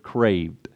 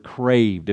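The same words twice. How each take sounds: First: Craved dropped very low and soft, weighted; stress on craved. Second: Craved said low and drawn out, savoured; stress on craved. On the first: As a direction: lean into craved, almost hushed. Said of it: "underline that word". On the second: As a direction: linger on craved. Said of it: "I love that word". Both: Shown as a demonstration.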